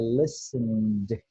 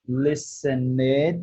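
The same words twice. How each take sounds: First: The ending is a bare d sound. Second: The ending is said as an extra syllable. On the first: The speaker calls it right. "Não tem o i no meio" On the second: The speaker calls it wrong. "é assim que a gente pronuncia? Não"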